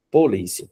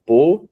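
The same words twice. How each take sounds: First: Said in the usual way. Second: "Polícia" split into po, lí, cia with clear pauses; syllable by syllable. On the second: Shown as a demonstration. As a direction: break "Polícia" into three separate syllables, po - lí - cia. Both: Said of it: "Nós separamos polícia da seguinte forma".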